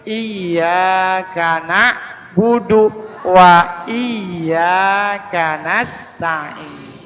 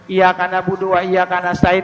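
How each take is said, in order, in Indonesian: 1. Bunyi y dibaca panjang, ganda. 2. Bunyi y pendek, tidak ganda. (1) "harus pakai tasdid" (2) "enggak pakai tasdid"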